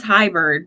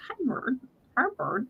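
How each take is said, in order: First: Said in the usual way. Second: Small, high, quiet pet-bird voice; tiny squeaky-soft bird greeting; Spanky. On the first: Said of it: "Spanky says". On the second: Retold or imitated. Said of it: "I swear he says".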